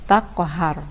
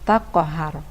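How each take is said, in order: No difference in how they are said.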